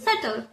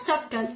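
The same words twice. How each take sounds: First: The B sound is left out entirely. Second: The B sound is pronounced in the middle. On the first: The speaker calls it right. "We call the B letter silent" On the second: The speaker calls it wrong. "it's not subtle"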